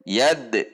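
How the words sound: There is a pause after the d sound. The speaker calls it wrong. "Antara bunyi de dengan khu itu ada jeda"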